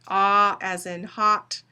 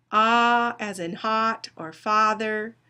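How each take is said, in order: First: Slow, open "Ah" as in "hot"; slow vowel demo. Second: Slow, drawn-out "Ah" as in "hot" and "father"; slow vowel demo. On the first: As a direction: draw out the "Ah" of "hot" for students. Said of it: "it's saying ah as in high, but it's not". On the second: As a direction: stretch the open "Ah" sound in "hot" and "father". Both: Shown as a demonstration.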